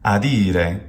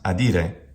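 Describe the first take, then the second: First: The middle vowel is long. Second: The middle vowel is short. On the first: The speaker calls it right. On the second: The speaker calls it wrong. "not adire"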